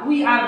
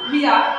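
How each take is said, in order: First: It is said as two full words. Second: It is said as one contracted word. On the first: The speaker calls it wrong. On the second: The speaker calls it right.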